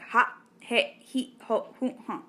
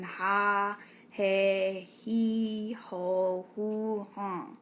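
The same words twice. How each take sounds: First: Each vowel ends in a sharp throat stop. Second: Each vowel is drawn out long. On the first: "that references a stop or a break" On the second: "It makes a long, lengthened sound"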